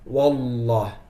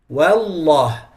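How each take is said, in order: First: The w sounds heavy and thick. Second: The w sounds light and thin. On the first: The speaker calls it wrong. "Don't make the waw get heavy" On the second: The speaker calls it right. "when you say wa wallah wallah"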